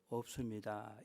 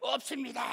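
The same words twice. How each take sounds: First: The word is said in a small, fading voice. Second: The word is said in a full, loud voice.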